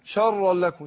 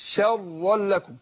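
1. صوت sh ده مفخم وتقيل. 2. صوت sh ده مرقق وخفيف. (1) "فما قولش شرا لكم" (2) "الشين طبعا مرققة"

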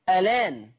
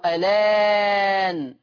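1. يُمَدّ حرف المد مدًا قصيرًا. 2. يُمَدّ حرف المد مدًا متوسطًا. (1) "فيه النقل مع التثليث" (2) "فيه النقل مع التثليث"

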